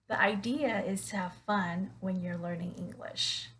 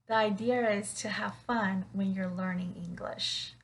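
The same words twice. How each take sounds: Both takes have the same delivery.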